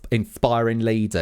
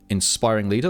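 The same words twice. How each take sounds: First: It is said in a put-on Essex accent. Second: It is said in the speaker's usual accent.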